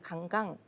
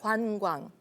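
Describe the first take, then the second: First: The vowels are flattened into plain vowels. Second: The vowels are clear rounded diphthongs. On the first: The speaker calls it wrong. "강강 이러면 뭐가 뭔지 잘 모르는 거죠" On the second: The speaker calls it right. "관광 이렇게 하셔야 되는"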